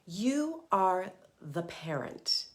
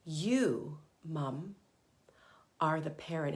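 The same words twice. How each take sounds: First: Slow, weighty, every word pressed; slow emphatic statement. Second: You and are pressed, paced with pauses; emphatic repeat. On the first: To moms, stating who is in charge, slowly. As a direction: lay it down slowly and firmly. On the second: To moms, repeating the point with pauses. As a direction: spell it out word by word. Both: Shown as a demonstration. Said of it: "I'm gonna say that again".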